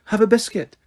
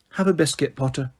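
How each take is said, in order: First: Higher, clipped repeat; impatient. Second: Said in the usual way. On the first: A narrator's reading. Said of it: "she repeated impatiently".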